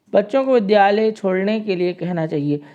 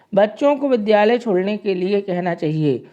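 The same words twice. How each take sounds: The two takes are said the same way.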